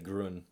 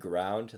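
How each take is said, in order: First: The word has a short 'uh' vowel, no d. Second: The word has an 'ow' vowel and final d. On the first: "they'll say grun" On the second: "instead of saying ground"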